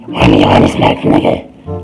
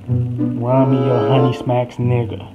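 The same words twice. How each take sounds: First: It is said in an imitated squirrel voice. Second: It is said in the speaker's normal voice.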